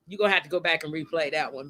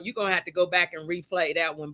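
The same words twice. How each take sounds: First: Quick, laughing through the words. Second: Said in the usual way. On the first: Real, not acted. Host repeating to late guest Carlin, laughing. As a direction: let the laugh break into the repeat.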